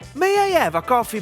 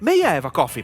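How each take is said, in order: First: The voice is pitched high. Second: The voice is pitched in a middle range. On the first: The request sounds unpleasant. "I tone. / with this high tonality is disgusting" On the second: The request sounds less troublesome. "Let's try with the medium tone"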